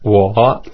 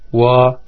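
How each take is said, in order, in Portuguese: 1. O tom desce e sobe um pouquinho. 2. O tom fica alto e estável. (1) "O terceiro tom desce e sobe um pouquinho" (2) "O primeiro tom é mais agudo e estável"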